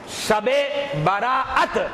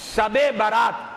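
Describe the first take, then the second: First: The last word is said as three syllables. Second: The last word is said as two syllables. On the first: This is not how it is usually said locally. "ये नहीं पढ़ा जाता" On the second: This is the usual way it is said locally. "हमारे यहां यह पढ़ा जाता है"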